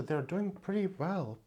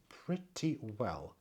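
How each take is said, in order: First: Said in the usual way. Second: Softer, slower repeat to herself; soft echo. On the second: Real, not acted. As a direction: let it fall away as a quiet aside. Echo of pretty well softer.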